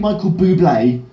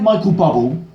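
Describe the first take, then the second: First: The name is said in a fancier, foreign-sounding way. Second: The name is said in a plain, unpretentious way. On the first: This is the name's actual pronunciation. The speaker calls it right. "it was actually [name]" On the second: The speaker was unsure and chose the less pretentious option. The speaker calls it wrong. "I always go with the option that sounds least pretentious"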